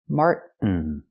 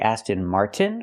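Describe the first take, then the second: First: The t in Martin stops the air. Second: The t in Martin is a clear t. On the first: "make it a stop T. Mart, stop the air" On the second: "We have to say Aston Martin with a T"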